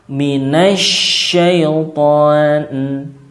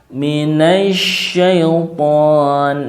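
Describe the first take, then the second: No difference in how they are said.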